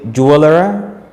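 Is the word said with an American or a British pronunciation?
American. The word is said with an American pronunciation.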